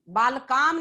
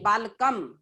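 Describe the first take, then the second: First: The vowel before the final m is long. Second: The vowel before the final m is short. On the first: The speaker calls it wrong. "एक बालकाम नहीं" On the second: The speaker calls it right. "मूल शब्द में सिर्फ म जोड़ना है।"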